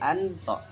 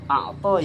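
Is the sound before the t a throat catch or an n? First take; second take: n; catch. First: An n sound comes before the t. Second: A throat catch comes before the t. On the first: "dibaca menjadi anto" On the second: "yang maknanya memberi"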